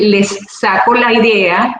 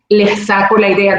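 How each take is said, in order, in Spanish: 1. La s en 'les' se pronuncia claramente. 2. La s en 'les' suena como una h fuerte. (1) "en vez de" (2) "como una jota"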